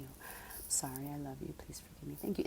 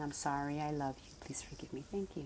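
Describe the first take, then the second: First: Whispered mantra. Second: Quiet, gentle recitation of the prayer; soft mantra. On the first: Showing the silent prayer she says inside, whispered. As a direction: barely voice it, as if only in her mind. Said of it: "In my mind, my, my lips are still". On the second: Reciting her inner mantra to the audience, softly. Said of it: "in my mind, I'm saying". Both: Shown as a demonstration.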